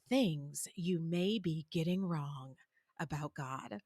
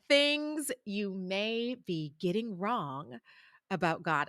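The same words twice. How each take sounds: First: It is said heavily, in a weighty, dramatic tone. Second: It is said lightly, in a plain tone.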